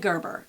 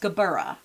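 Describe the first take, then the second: First: The word ends after two syllables, dropping the final vowel. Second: The word has three syllables, ending in an extra vowel. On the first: The speaker calls it wrong. "Don't say Gerber. That's wrong" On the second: The speaker calls it right. "It's Gerbera"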